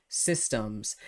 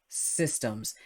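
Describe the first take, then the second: No difference in how they are said.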